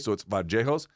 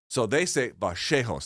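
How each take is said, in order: First: The double L sounds like an English J. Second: The double L sounds like English sh. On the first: This is how it is said in Colombia. "they'll put a J on it, like an English J" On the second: This is how Argentines say it. "The Argentines make it a sh sound"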